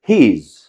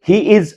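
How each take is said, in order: First: The two words are joined into one. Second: The two words are said separately. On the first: The speaker calls it right. "इस प्रकार से इसकी ध्वनि निकालनी है" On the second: The speaker calls it wrong. "अलग अलग नहीं बोलना है"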